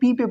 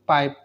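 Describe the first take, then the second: First: The word is said as two separate syllables. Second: The word is said as one syllable. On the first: The speaker calls it wrong. "बहुत सारे बच्चे देखे हैं जो P I P E को P पे पढ़ते हैं" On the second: The speaker calls it right. "लेकिन आपको क्या पढ़ना है पाइप"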